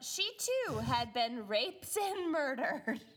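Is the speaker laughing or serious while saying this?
laughing. The sentence is said while laughing. The speaker calls it wrong. "Don't say it while laughing"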